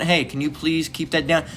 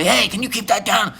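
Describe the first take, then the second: First: Softer, polite ask to turn it down; polite request. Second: High-pitched imitated yelling; hammed-up retold shout at the neighbor; mock yell. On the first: Retold or imitated. Neighbor politely asking the man on his porch to quiet down. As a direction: ask nicely, a little quiet. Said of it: "it probably wasn't". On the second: Neighbor yelling at the man blasting on his porch, higher mock yell. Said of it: "It was probably yelling".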